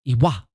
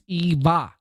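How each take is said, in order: First: The middle consonant is a W sound. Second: The middle consonant is a V sound. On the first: The speaker calls it wrong. "here in the States, it's that would be pronounced Iwa" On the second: The speaker calls it right. "I stand corrected. It's Eva"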